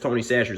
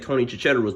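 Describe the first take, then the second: First: The surname is said like 'Chachere's'. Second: The surname is said like 'Chicharros'. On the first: This is the pronunciation he later learned. "I found out that it's Tony Chachere's" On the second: This is how he used to say it. "I used to say Tony Chicharros"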